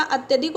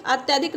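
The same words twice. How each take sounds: First: अत्यधिक with a short "tya"; short middle vowel in अत्यधिक; correct vowel. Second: अत्याधिक with a long "tyaa"; wrong vowel. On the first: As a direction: say अत्यधिक as "at-ya-dhik". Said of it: "अत्यधिक होता है". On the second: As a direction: say अत्याधिक as "at-yaa-dhik". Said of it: "अत्याधिक नहीं होता". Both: Shown as a demonstration.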